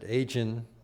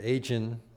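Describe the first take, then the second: First: The name sounds like the word aging. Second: The name sounds like the word aging.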